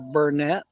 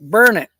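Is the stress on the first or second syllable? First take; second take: second; first. First: The stress falls on the second syllable. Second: The stress falls on the first syllable. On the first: This is how newcomers to the area say it. The speaker calls it wrong. "what they call Burnett" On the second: This is how locals say it. The speaker calls it right. "It's burn it, darn it, learn it"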